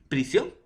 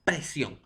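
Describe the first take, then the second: First: "Prisión" with an I in the first syllable; pronunciation demonstration. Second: "presión" with an E in the first syllable; pronunciation demonstration. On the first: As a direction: say "Prisión" distinctly, "pri" not "pre". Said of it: "su pronunciación va a ser similar". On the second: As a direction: say "presión" distinctly, "pre" not "pri". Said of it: "En la I y en la E". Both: Shown as a demonstration.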